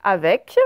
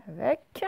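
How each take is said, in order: First: Avec said loud and firm on the è; loud teaching Avec; sound demo. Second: Said in the usual way. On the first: Shown as a demonstration. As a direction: call out Avec clearly. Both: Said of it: "il y a le petit mot avec".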